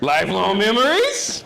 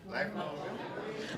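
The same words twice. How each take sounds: First: The voice rises at the end. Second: The voice falls at the end.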